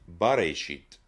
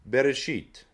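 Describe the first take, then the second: First: The first vowel is a full 'a' sound. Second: The first vowel is a short reduced schwa. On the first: It means the beginning, with a definite article. "it should have said Bereshit. ... Kametz instead of Sheva" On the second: The beginning is not marked as definite. "The Bible says in the Hebrew Bereshit"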